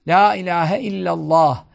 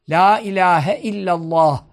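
Both takes have the same delivery.

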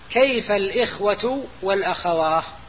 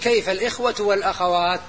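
First: The final word ends with an h sound. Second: The final word ends with a t sound. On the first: This is a rare dialect form of the plural. "اللي يقف بالهاء هم عرب طي" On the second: This is the standard form of the plural. "الأصل أنه يقول"

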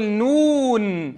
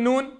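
First: The final n sound is held a moderate time. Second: The final n sound is swallowed quickly. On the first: The speaker calls it right. "أعطي البينية للنون الختامية" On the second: The speaker calls it wrong. "فلا أقول نون وإبلعها"

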